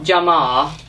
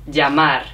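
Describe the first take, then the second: First: The final R sound is dropped. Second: The final R sound is pronounced. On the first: The speaker calls it wrong. "So it's not llamar" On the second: The speaker calls it right. "we do pronounce the R at the end of a word"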